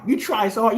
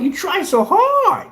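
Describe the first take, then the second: First: Said in the usual way. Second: High, slow sing-song taunt; mocking. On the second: Taunting rivals who envy his paint, high slow mock voice. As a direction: tease them as pathetic tryhards.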